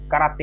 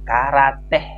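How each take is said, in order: First: It is said plainly without any h sound. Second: It is said with an added h sound. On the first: The speaker calls it wrong. "Jangan jangan dibaca karate ya doang" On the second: The speaker calls it right. "Pakai H bro"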